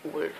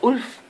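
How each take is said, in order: First: The word begins with a w sound. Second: The word begins with a vowel sound.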